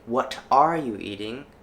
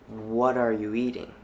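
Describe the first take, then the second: First: The T in 'what' is a clear T. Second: The T in 'what' is a soft flap. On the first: "Instead of saying" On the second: "the T in what is being flapped"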